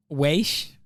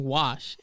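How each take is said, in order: First: "weish" said as waysh, long ay vowel; imitated mispronunciation. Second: Said in the usual way. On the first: Quoting a man's odd word for wash, mispronounced "weish". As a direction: say "weish" to rhyme with "aysh". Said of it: "he kept saying w". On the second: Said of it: "I think he was saying".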